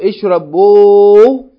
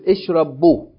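First: The final vowel is held long. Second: The final vowel is cut short. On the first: "when you have a long vowel, for hamzatul wasl, you make it short" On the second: "you make it short"

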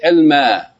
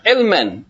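First: The word ends in a vowel without n. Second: The word ends with an n sound. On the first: "you should pronounce it because of the rules of tajweed and recitation of Quran. You say ilma"

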